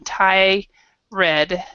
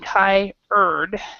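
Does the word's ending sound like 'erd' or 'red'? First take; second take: red; erd. First: The second part sounds like 'red'. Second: The second part sounds like 'erd'. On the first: The speaker calls it wrong. "people separate them... but it's actually not pronounced that way" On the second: The speaker calls it right. "basically Thai erd"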